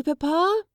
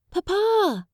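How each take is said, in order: First: Put-on high, rising boy's cry of Papa; a boy wanting his father to watch; high eager child voice; child calling. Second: Put-on a boy calls Papa much higher; excited little boy shouting for his father; high child's call. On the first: Child shows off.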